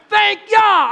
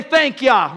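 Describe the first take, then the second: First: High, louder call of thanks. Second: Said in the usual way. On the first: Shown as a demonstration. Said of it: "I'm not just saying you". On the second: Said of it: "Somebody say".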